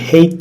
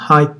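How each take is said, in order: First: The vowel does not sound like 'high'. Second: The vowel sounds like 'high' plus t. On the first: The speaker calls it wrong. "height diye okunmuyor" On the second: The speaker calls it right. "height diye okunuyor. Hani high var ya"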